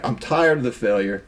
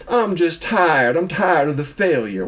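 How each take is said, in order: First: Said in the usual way. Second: Weary line sliding into a Southern accent. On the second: Real, not acted. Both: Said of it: "Why are you talking a Southern accent?".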